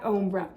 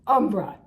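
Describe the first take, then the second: First: The name is said with an Italian-style sound. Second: The name is said the plain English way. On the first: The speaker calls it wrong. "I kind of give it this Italian name that it doesn't, that the company doesn't use" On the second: The speaker calls it right. "Umbra, not Ombra"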